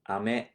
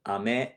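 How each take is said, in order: First: The pitch rises across the word. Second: The pitch rises across the word.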